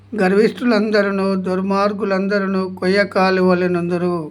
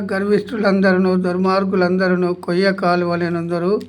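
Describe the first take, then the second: No difference in how they are said.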